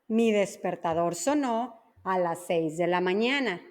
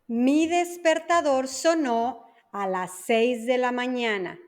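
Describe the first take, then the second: First: The sentence is spoken at normal speed. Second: The sentence is spoken slowly. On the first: "la segunda va a ser una velocidad normal" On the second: "La primera lenta"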